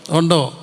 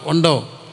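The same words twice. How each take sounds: The two takes are said the same way.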